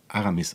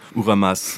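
First: The vowels are a, a, i. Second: The vowels are u, a, a. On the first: The name is said correctly. The speaker calls it right. "ich heiße ja Aramis eigentlich" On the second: The name is said incorrectly. The speaker calls it wrong. "er wird immer anders genannt"

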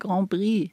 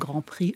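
First: The second word begins with a soft B sound. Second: The second word begins with a clear P sound. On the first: The speaker calls it wrong. "ein Problem haben, das P auszusprechen und ein B nehmen" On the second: The speaker calls it right. "Du sprichst wenigstens richtig aus"

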